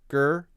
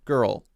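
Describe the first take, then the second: First: The word ends without any L sound. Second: The word ends with a clear L sound. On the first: The speaker calls it wrong. "Maybe adding the L sound a little bit more might make it more clear" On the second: The speaker calls it right. "Just hitting the L, bringing the tongue up to the L position"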